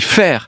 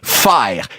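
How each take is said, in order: First: The vowel is one steady sound. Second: The vowel glides through three sounds. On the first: "Nous, on dit faire" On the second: "Ils font carrément des triphtongues. A, E, I"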